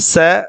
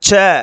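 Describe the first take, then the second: First: The consonant is said softened and weakened. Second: The consonant is said with full strength. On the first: "வலிமை குறைந்து ஒலிக்கக் கேட்கின்றோம்" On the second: "வலிமையாகவே ஒலிக்கும்"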